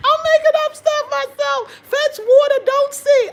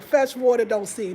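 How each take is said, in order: First: Helpless high, loud laughter through the words; squealing with laughter while talking; laughing. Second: Said in the usual way. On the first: Real, not acted. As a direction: crack up at your own nonsense. Cracking up at own made-up proverb.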